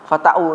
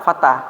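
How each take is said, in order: First: The word ends with an added 'u' vowel. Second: The word ends with a plain 'a' vowel. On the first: The speaker calls it wrong. "enggak boleh baca" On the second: The speaker calls it right. "Tetap baca fatah"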